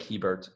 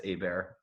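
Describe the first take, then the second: First: "Hebert" said as written, HEE-bert; spelled-as-written pronunciation. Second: "Hebert" said the French way, AY-bear; French-style pronunciation. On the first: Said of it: "It looks like Hebert". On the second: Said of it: "pronounced Hebert ... the French spelling". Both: Shown as a demonstration.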